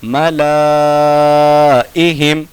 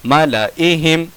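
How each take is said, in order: First: मलाइहिम with ला held very long; slow chanted मलाइहिम, alif sounded; written-form reading. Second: मलाइहिम with short ला; measured मलाइहिम, alif silent; correct recitation. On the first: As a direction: stretch ला before इहिम in मलाइहिम. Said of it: "लिखने का तरीका". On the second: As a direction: keep ला brief before इहिम in मलाइहिम. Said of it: "पढ़ने का तरीका". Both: Shown as a demonstration.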